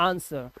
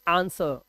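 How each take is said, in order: First: The w sound is silent. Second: The w sound is silent.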